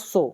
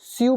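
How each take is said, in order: First: The word is said with an 'oh' vowel. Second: The word is said with a 'yoo' vowel. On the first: The speaker calls it right. "English में इसका pronunciation दोनों का होता है सो" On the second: The speaker calls it wrong. "नीचे वाले को स्यू बोलना चाहिए"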